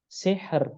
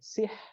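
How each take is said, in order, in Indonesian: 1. Bunyi r akhir digetarkan terlalu berlebihan. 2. Bunyi r akhir dihilangkan sama sekali. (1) "Jangan sihr. ... salah" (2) "Atau ra-nya hilang"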